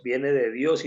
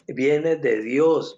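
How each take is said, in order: First: Said in the usual way. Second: "Viene de Dios" drawn out very slowly, each word weighted; slow emphatic insistence. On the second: Retold or imitated. Father insisting to psychologists, slow and firm. Repeats his answer slowly.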